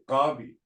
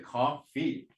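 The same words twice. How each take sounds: First: Missing English sounds are replaced with Blackfoot ones. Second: It is said with standard English consonant sounds. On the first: "they'll say coffee. Because k is not part of our language" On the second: "They won't say coffee"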